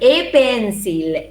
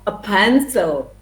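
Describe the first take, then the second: First: The article has a full strong vowel. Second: The article has a short weak schwa vowel. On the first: The speaker calls it wrong. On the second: The speaker calls it right.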